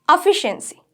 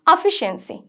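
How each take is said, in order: Both takes have the same delivery.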